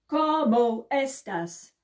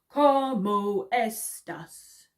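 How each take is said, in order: First: It is said at the fastest pace. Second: It is said a bit faster.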